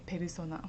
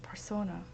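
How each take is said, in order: First: It is said with a Japanese pronunciation. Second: It is said with an English pronunciation, soft R. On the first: "if you saying in Japanese, they say persona" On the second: "English pronunciation we say persona"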